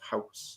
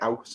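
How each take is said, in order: First: The word starts with a clear H sound. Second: The word starts without an H sound.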